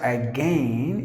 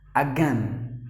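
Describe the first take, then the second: First: The i in the second syllable is sounded. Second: The i in the second syllable is silent. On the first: The speaker calls it wrong. "not again" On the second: The speaker calls it right. "the letter I is actually silent"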